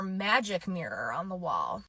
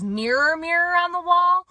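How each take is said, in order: First: "Magic mirror on the wall" slow, soft, sinking; falling second option. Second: "Mirror, mirror on the wall" climbing high and loud; rising first option. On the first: Vlogger offering viewers the other line, falling tune. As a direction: let WALL drop low to close the choice. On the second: Vlogger offering viewers the remembered line, rising tune. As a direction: hold WALL up high as a question. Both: Shown as a demonstration.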